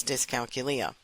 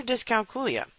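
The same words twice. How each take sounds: First: "Dyscalculia" with a quick "kyuh" in the middle; common pronunciation. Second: "dyscalculia" with a "KOO" in the middle; Latin-style pronunciation. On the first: Host naming the podcast, "Dyscalculia" said dis-kal-kyuh-LEE-uh. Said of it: "I typically hear it pronounced". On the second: Host offering the Latin alternative, "dyscalculia" said dis-kal-KOO-lee-uh. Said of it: "If you have a background in Latin". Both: Shown as a demonstration.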